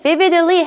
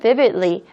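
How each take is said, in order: First: The word is pronounced crisply and distinctly. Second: The word is pronounced more softly and smoothly. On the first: "해도 상관없지만" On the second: "좀 더 부드럽게 발음하고 싶으시면"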